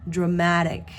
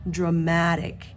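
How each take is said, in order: No difference in how they are said.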